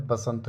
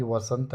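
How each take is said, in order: First: बसंत starting with a b sound; rejected form. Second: वसंत starting with a v/w sound; correct form. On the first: Teacher rejecting the wrong word, b at the start of बसंत. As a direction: open बसंत on a b, not v. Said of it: "बसंत नहीं". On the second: Teacher giving the right word, v at the start of वसंत. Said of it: "ये वसंत है". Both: Shown as a demonstration.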